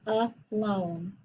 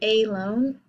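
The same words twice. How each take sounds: First: The first vowel is a weak 'uh' sound. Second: The first vowel is a full 'ay' sound. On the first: The speaker calls it right. "but it is a schwa. ... I say a loan" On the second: The speaker calls it wrong. "I don't say a loan"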